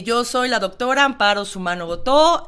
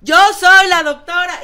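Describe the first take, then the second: First: Loud, projected speech at a steady pitch; strong public-speaking voice, controlled; projected voice, not shouting. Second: High, very loud shout; demonstrated full-voice yell. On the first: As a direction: project as if addressing forty people, without shouting. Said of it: "fuerte, sin gritar". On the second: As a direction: yell it out at full force, pitched way up. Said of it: "Ahora grita". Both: Shown as a demonstration.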